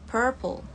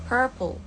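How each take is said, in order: No difference in how they are said.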